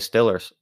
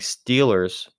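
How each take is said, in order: First: It is said in a Pittsburgh accent. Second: It is said in a standard accent. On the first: "some people say Steelers" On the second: "instead of saying Steelers"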